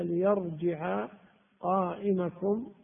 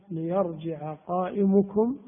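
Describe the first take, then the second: First: قائمكم with an "a" after the m, qa'imakum; accusative reading. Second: قائمكم with an "u" after the m, qa'imukum; nominative reading. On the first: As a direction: slowly sound the fatha in قائمكم: qa'imakum. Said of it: "جعلناه متعدي". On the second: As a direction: slowly sound the damma in قائمكم: qa'imukum. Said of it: "قرأناها بالرفع". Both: Shown as a demonstration.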